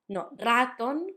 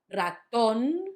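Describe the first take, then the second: First: The stress is on the first syllable. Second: The stress is on the last syllable. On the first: The speaker calls it wrong. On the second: The speaker calls it right. "the first one is on the last syllable"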